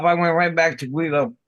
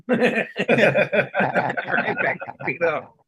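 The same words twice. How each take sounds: First: Said in the usual way. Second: Slow, laughing through the words. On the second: Real, not acted. Telling friends he went back to Guido, laughing. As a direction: let the laugh spill over the repeat.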